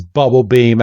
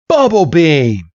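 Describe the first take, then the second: First: Said in the usual way. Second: Higher, falling battle cry on BUBBLE BEAM; acted battle command; attack call. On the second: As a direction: call the move out to your monster. Trainer calls out an attack.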